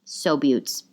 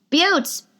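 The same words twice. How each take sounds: First: Said in the usual way. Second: High-pitched cheery holler; high call-out. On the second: Real, not acted. Host hailing her fans, high call-out. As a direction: sing out to the listeners. Calling out to listeners at sign-off.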